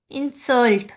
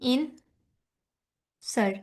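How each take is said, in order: First: insult with the second syllable Salt stressed. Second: insult slow with the first syllable इन stressed. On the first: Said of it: "Salt पे हम लोग क्या कर रहे हैं, stress दे रहे हैं". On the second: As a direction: draw out insult, lean on इन. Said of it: "stress देंगे ना". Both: Shown as a demonstration.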